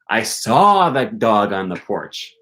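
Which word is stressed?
saw. The stress falls on the word saw. The dog was seen, not sensed another way. "I didn't smell him"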